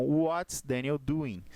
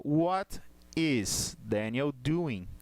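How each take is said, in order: First: "what's" run together as one word; contracted form. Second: "What is" as two separate slow words; uncontracted full form. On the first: Teacher showing the class the contraction, contracted. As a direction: join what and is into "what's". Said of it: "é a contração de what e is". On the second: Teacher showing the class the direct form, uncontracted. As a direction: slowly spell out "What is", each word apart. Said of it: "Se eu for falar de forma direta". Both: Shown as a demonstration.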